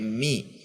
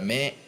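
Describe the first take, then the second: First: The vowel sounds like 'i'. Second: The vowel sounds like 'e'. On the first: The speaker calls it right. "tapi mi" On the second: The speaker calls it wrong. "Mi-nya juga tidak me"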